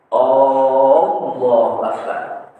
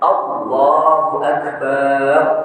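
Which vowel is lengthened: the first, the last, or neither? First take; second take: first; last. First: The opening vowel of Allahu is drawn out long. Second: The vowel in the final syllable bar is long. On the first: It turns the phrase into a question. "Karena Allahnya panjang" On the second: It means God is a drum. "Barnya panjang"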